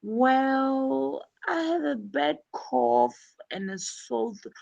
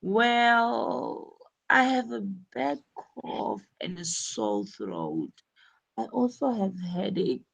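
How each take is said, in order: First: Hesitant patient. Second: "Well" stretched, then softer unsure complaint; hesitant patient. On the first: Teacher voicing Kathy stalling for time before the doctor. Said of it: "buying time by saying". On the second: Teacher voicing Kathy telling the doctor her symptoms. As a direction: hedge and stall before answering. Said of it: "what she said is". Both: Shown as a demonstration.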